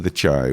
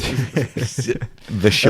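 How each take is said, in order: First: The name starts with a 'ch' sound, like 'chai'. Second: The name starts with a 'sh' sound, like 'shy'. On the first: The speaker calls it wrong. "I've been saying The Chai, which is probably why no one knows what I'm talking about" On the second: The speaker calls it right. "It's Shy"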